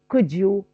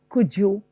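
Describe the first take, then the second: First: The d and y merge into a j sound. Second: The same.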